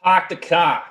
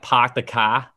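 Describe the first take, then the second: First: Boston "Park the car", "Pahk the cah", louder and higher; loud Boston "Park the car" on request; Boston accent. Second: Boston "Park the car" with dropped r, "cah"; Boston accent prompt, "Park the car" without the r. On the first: Pretend. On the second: Shown as a demonstration. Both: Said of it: "can you say".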